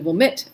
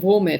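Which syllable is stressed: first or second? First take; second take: second; first. First: The stress is on the second syllable. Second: The stress is on the first syllable. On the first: It is the normal pronunciation. The speaker calls it right. "but it's really womit" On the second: It contrasts wo- with da-. The speaker calls it wrong. "to contrast them, I say womit"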